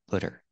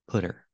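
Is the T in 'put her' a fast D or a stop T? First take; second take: fast D; fast D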